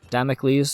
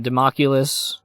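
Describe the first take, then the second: First: The name ends with an 'ocles' sound. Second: The name ends with an 'oculus' sound. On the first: The speaker calls it right. "is I think how you fucking say it" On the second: The speaker calls it wrong. "not like the fucking eyeball from Team Fortress two"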